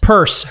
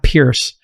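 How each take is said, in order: First: The name rhymes with nurse. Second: The name rhymes with fierce. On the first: The speaker calls it right. "it's spelled Pierce" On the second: The speaker calls it wrong. "It's not Pierce"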